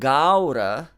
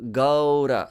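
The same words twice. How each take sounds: First: The first vowel is a wide open ah. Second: A short a glides quickly into u. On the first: The speaker calls it wrong. "You don't make that ah too open" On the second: The speaker calls it right. "So short a gliding into u"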